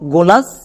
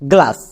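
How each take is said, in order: First: A vowel is inserted between the g and l. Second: The g and l are blended with no vowel. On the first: The speaker calls it wrong. "ভেঙে উচ্চারণ করেছি এর উচ্চারণটা হয়েছে গোলাস" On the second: The speaker calls it right. "নিয়ম অনুযায়ী করেছি তখন হয়েছে গ্লাস"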